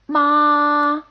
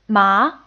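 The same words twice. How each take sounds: First: The pitch stays high and level. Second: The pitch rises from mid to high. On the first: "a rather high, steady tone" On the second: "a rising tone"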